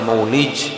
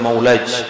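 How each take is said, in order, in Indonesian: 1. Vokal setelah L adalah 'i'. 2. Vokal setelah L adalah 'a'. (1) "al maulid bi kasril lam" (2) "Bisa dibaca juga waruya bi fathiha"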